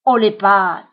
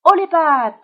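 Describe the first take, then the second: First: Loud, menacing order through the teeth; icy, forceful hold-up command; terrible ice-cold voice. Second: Loud, high stick-'em-up call; higher-pitched shouted command; hold-up shout. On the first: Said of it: "d'une voix terrible, froide comme la glace, il grince entre ses dents". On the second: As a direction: shout it out like a little bandit. Billy hold-up on passing rabbit. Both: A narrator's reading.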